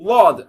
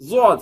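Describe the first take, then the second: First: The first consonant sounds like an l sound. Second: The first consonant sounds like a z sound. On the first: "லாம் மீது ஏறி நின்று சொன்னீங்கன்னா" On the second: "ஜாவெல்லாம் கலந்தீங்கன்னா"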